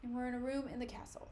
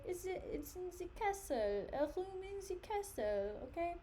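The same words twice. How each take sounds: First: Said in the usual way. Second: Hammed-up French accent, higher pitched; playful French accent. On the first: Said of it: "My French accent". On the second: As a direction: say it in a jokey put-on French accent. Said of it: "My French accent just, like, sent me into a frenzy".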